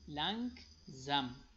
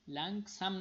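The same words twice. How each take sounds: First: The s is voiced like a z. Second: The s is voiceless like an s. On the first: The speaker calls it right. "پس اس تبدیل به زی میشه" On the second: The speaker calls it wrong. "لنگزم نمیخوانیم"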